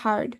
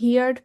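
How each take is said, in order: First: The vowel sounds like the one in 'her'. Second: The vowel sounds like the one in 'hear'. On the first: The speaker calls it right. "সঠিক উচ্চারণ হচ্ছে হার্ড" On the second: The speaker calls it wrong. "অনেকে হিয়ার্ড পড়তাম ছোটবেলায়"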